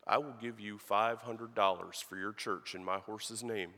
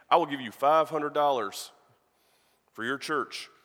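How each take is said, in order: First: Said in the usual way. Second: Louder, pressing offer that stresses the five hundred dollars; a cowboy insisting to the preacher, loud; insistent offer. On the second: Retold or imitated. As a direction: push the offer hard. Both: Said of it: "he says".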